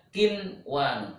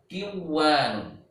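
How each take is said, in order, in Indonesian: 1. Bunyi n diucapkan dengan jelas sebelum w. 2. Bunyi n menyatu dengan w yang mengikutinya. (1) "di sini dibaca kinwanun. Nunnya harus jelas" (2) "mestinya dibaca kiwanun"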